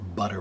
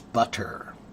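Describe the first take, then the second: First: It is quick, with a flapped T. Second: It is slow, with a full hard T. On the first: "But when you say it quickly" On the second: "when you say it slowly"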